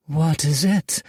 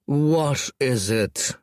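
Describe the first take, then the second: First: Higher, brighter female character voice; Red Fang asking, higher and louder; curious Red Fang. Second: Slow, bored dragon-lord drawl; the lord drags out his question to his lieutenant. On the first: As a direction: concubine asking her lord what's wrong. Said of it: "said Red Fang". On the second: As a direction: stretch every word out, unimpressed. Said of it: "drawled Scraggletooth". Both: A narrator's reading.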